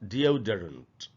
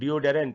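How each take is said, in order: First: The third syllable has a reduced 'duh' vowel. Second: The third syllable has a full 'deh' vowel. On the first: The speaker calls it right. "इसका जो correct pronunciation है वो है डिओडरेंट" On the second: The speaker calls it wrong. "इसको अक्सर हम लोग डिओडेरेंट ऐसे पढ़ लेते हैं"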